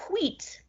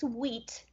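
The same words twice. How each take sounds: First: "wheat" high-pitched with an exaggerated hw; mock-fancy "wheat", breath before the w; affected "wheat". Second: Said in the usual way. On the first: Repeats word affectedly, "if you will.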